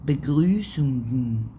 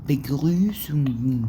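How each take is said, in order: Both takes have the same delivery.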